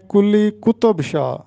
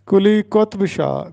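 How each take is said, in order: First: قطب said as "qutub" with an extra u between t and b; کلی قطب Shah read wrongly as "kuli qutub shah"; common wrong pronunciation. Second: قطب said as "qotb", t and b closed together; کلی قطب Shah spoken "kuli qotb shah"; correct pronunciation. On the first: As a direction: demo of the students' mistake with قطب. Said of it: "جو کہ غلط ہے". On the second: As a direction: model the correct قطب, no vowel before b. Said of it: "تو درست تلفظ ہوگا". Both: Shown as a demonstration.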